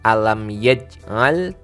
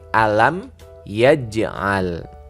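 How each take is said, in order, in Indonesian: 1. Bunyi j dipotong tanpa memantul. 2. Bunyi j diakhiri dengan pantulan pendek yang bergema. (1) "Tidak hanya dibaca alam yaj'al" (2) "ini ada bunyi qalqalah memantul"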